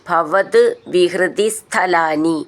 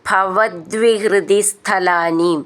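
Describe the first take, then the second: First: The first two words are said as separate words. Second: The first two words are joined into one. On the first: "പിരിച്ചിട്ടും ചൊല്ലാം" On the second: "ചേർത്തിട്ട്"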